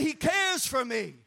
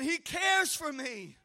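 First: Said in the usual way. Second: He cares for me, slower and shouted; louder repeat. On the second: Shown as a demonstration. Preacher leading the church's second response, louder. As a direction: call it back stronger. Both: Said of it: "Say it again".

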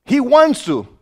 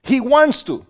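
The two takes are said the same way.

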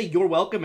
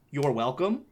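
First: "You're welcome," in a lightly sneering tone; mock sneer. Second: Said in the usual way. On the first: Shown as a demonstration. Mock polite reply to a customer with a light sneer. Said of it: "and fucking sneer". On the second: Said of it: "I just didn't say".

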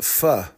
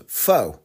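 First: "pho" as "fuh", no long O; "pho" with an open "uh" vowel; correct pronunciation. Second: "pho" rhyming with "foe"; "pho" said like English "foe"; mistaken pronunciation. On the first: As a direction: say "pho" rhyming with British "fur", R silent. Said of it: "It's actually pronounced". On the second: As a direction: say "pho" with a long O, as "foh". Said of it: "we thought it was pronounced". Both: Shown as a demonstration.

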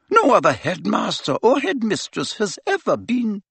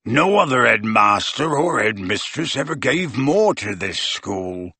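First: Higher, firm and precise; stern headmistress. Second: Growled. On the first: Professor answering Harry about burial, firm and raised. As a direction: state the rule flatly and firmly. McGonagall voiced. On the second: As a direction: growl it in defiance. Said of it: "growled Hagrid". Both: A narrator's reading.

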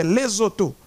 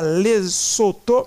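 First: "Lesotho" with the S voiced like Z, le-zo-to; correct pronunciation. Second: "Lesotho" with a hard S, le-so-to; common wrong way. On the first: Commentator correcting listeners, "Lesotho" said le-zo-to. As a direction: buzz the S in "Lesotho" like a Z. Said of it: "se prononcent comme Z". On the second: Commentator showing listeners the wrong "Lesotho" with a hissed S. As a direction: say "Lesotho" as everyone does, sharp S sound. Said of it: "on ne dit pas Lesotho". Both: Shown as a demonstration.

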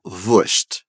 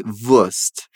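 First: Wurscht said voorsht, hushed sch before t. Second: Wurst said voorst, plain s, no hush; Wurst, crisp s not sh; Wurst without sh. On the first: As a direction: wurscht with the southern sh sound. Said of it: "ela falou wurscht". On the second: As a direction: Wurst with a clean s. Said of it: "sem fazer esse som tão chiado". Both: Shown as a demonstration.

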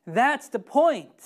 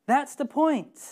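First: Said in the usual way. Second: That's the point said higher the second time; pushed-up echo of That's the point; raised repeat. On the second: Shown as a demonstration. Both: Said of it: "repeated for emphasis".

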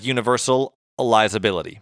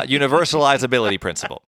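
First: "universalizability" sounded out carefully in parts; slow, careful pronunciation. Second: "universalizability" spelled out slowly, syllable by syllable. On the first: Real, not acted. Host struggles with the word universalizability, saying it slowly. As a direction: take "universalizability" slowly, piece by piece. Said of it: "had to say it slow for myself". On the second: Shown as a demonstration. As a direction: carefully sound out "universalizability principle". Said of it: "I just had to say it slow for myself".

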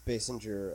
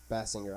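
First: Basinger said one way, tentatively; first pronunciation. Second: Basinger with the other vowel sound; alternative pronunciation. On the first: Unsure how to say her name, Basinger in a first pronunciation. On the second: Correcting himself on her name, Basinger in an alternative pronunciation. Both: Shown as a demonstration. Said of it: "never know how to pronounce".

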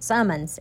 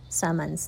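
First: Said in the usual way. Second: Summons said the way her own accent says it; Summons, unadjusted, in her own accent. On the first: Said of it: "S U M M O N S". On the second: Shown as a demonstration. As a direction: say Summons in your natural accent. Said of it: "that's my accent".

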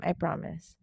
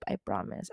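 First: Said in the usual way. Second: A soft whispered I promise; whispered I promise to viewers. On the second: Real, not acted. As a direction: breathe I promise, barely voiced. Soft promise before a plain one.

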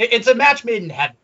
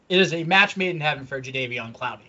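First: Excited. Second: Said in the usual way. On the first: Real, not acted. Excited first take of phrase.

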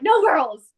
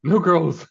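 First: Put-on high, loud "No girls" with a falling end; hammed-up protest at the girls moving in; mock bro shout. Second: Put-on high, loud "No girls" echoing a friend; jokingly repeating the friend's bit; echoed bro shout. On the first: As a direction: bark "No girls" like a jealous bro. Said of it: "He's like". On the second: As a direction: chime in with the same mock shout.

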